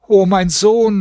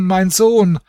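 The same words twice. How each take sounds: First: Hoher, klagender Ruf, gedehnt; jammernder Aufschrei. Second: Hoch einsetzend, dann abfallend jammern; fallende Klage. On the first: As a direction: wie eine Mutter, die ihren Sohn verloren hat, aufschreien. (hoher Klageruf) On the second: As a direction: den Namen des Verlorenen sinken lassen. (hohe, fallende Klage) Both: A narrator's reading. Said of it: "schrie und jammerte".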